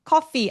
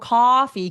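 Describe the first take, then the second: First: The first vowel is short and clipped. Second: The first vowel is long and drawn out. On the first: The speaker calls it wrong. "아니고" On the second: The speaker calls it right. "길어야 돼요"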